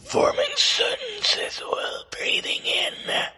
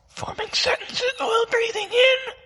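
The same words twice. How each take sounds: First: It is spoken on an in-breath, throat constricted. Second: It is spoken on an in-breath, throat relaxed. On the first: "Step two is going to be to constrict your vocal cords" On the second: "step one, breathing inward"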